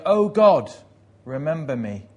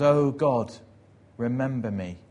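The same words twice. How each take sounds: First: Great burst of prayer. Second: Plea opening loud, then settling; praying. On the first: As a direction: burst out praying at full voice. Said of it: "in one great burst is praying". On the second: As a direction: call on God, then ease into the request. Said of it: "begins to pray". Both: Retold or imitated.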